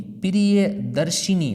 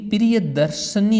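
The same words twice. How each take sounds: First: प्रियदर्शिनी said slowly with a clear शि sound; slow प्रियदर्शिनी, stressing शिनी; correct form slowly. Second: प्रियदर्शनी said with a plain short न; प्रियदर्शनी stressed as the wrong form. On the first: Teacher gives the right word slowly. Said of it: "दर्शिनी होगा". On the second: Teacher rejects the wrong spelling aloud. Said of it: "लेकिन प्रियदर्शनी नहीं". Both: Shown as a demonstration.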